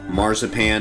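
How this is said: It is said with an American English pronunciation. "as we say in the States"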